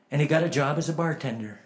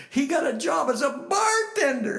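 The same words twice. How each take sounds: First: Said in the usual way. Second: High, shouted disbelief; scandalised outcry. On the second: Retold or imitated. Fellow believers reacting to Cecil's new job, scandalised shout. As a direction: shriek it like an appalled churchgoer.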